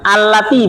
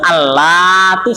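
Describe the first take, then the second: First: The vowel is said short, not lengthened. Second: The vowel is said long, drawn out. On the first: The speaker calls it right. "nggak pakai panjang ya. Alati begitu" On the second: The speaker calls it wrong. "bukan alati, salah"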